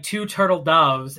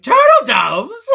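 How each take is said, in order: First: Said in the usual way. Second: High, loud, drawn-out mock shout; hammed-up kingly outburst, half laughing; excited king. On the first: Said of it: "the messenger comes in to Silver Bell and sings". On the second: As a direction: bellow it as an amazed question. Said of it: "the king is like".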